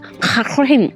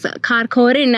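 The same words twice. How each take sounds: First: It begins with a throaty rasping Kh sound. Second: It begins with a plain hard K sound. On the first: This is how locals actually say it. The speaker calls it right. "it's actually pronounced as" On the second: It is read as it looks on a map. The speaker calls it wrong. "as we read it on Google Maps"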